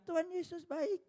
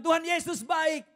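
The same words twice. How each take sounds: First: High parrot echo with a rise. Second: High, loud praise; joyful praise. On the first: Parrot copying its owner's praise, high. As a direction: repeat it like a parrot. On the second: Believer praising Jesus to his parrot, high and loud. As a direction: proclaim it joyfully. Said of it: "Dia bilang". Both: Retold or imitated.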